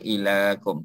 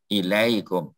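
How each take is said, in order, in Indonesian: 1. Suku kata kedua dibaca 'la' biasa, tanpa peluncur. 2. Suku kata kedua ada bunyi peluncur 'ai'. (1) "jangan baca ilakum, tak ada dalam Quran ilakum" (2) "Mesti dihidupkan ya tu"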